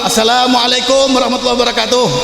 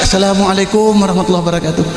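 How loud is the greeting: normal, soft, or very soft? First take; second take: normal; soft. First: The greeting is said at normal volume. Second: The greeting is said more softly.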